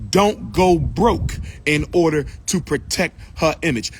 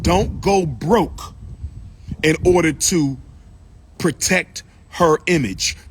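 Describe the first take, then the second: First: Said in the usual way. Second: "But don't go broke in order to protect her image" drawn out slow, each word weighed; slow emphatic warning. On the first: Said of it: "But don't go broke in order to protect her image". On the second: Shown as a demonstration. Preaching to brothers about money, slow and deliberate. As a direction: lean on every word of it, slowly.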